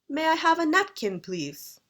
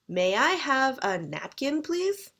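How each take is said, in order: First: It is said with a British intonation. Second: It is said with a Canadian intonation. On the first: "If you're British, you might say" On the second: "I'm Canadian, so I say"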